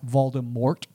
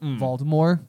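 First: The final T sound is clearly pronounced. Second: The final T sound is left silent. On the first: "starts to refer to him as Voldemort" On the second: "instead of Voldemort"

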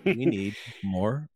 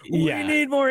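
First: The voice is flat and monotone. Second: The voice is lively and energetic. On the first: "He was doing it in a very monotone" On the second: "He wasn't like"

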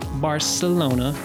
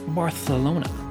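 First: The c is said as an s sound. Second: The c is said as a th sound. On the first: It follows the local Catalan pronunciation. The speaker calls it right. "the C is pronounced as an S. So Barcelona is the correct pronunciation" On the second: It tries to sound more Spanish. The speaker calls it wrong. "by pronouncing the C in Barcelona as TH"

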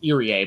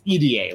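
First: The name is said as one ordinary word. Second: The name sounds like the letters E-D-A. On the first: The speaker calls it wrong. "that's how the commentary usually pronounces Irie" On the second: The speaker calls it right. "like the letters like EDA"

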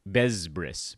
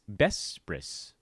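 First: The consonants are hard, Z-like sounds. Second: The consonants are soft, S-like sounds. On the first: The speaker calls it wrong. "A lot of people pronounce it" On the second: The speaker calls it right. "Soft sounds"

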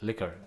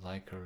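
First: The ending sounds like English 'liquor'. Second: The ending sounds like English 'liker'. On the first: The speaker calls it right. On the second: The speaker calls it wrong. "It's not liker"

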